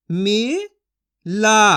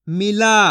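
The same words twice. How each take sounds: First: मिला stretched slowly, syllable by syllable; slow drawn-out sounding. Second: Said in the usual way. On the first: Shown as a demonstration. Teacher stretching मिला slowly for children to copy. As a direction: draw out मिला very slowly for the class. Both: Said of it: "मैं किस तरीके से एक एक अक्षर का उच्चारण करके".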